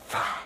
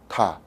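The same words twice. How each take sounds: First: It starts with a breathy th sound between the teeth. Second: It starts with a t sound with a puff of air. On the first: "But in in English you don't pronounce a th sound like that. You go the or tha" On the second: "in Vietnamese we pronounce the th as uh, tha"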